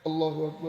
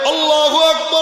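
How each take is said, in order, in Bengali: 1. এটি আস্তে ও নিচু স্বরে বলা হয়। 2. এটি জোরে চিৎকার করে বলা হয়। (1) "আস্তে আস্তে বলে, জোরে জোরে বলে না।" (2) "চিৎকার দিয়া বলে"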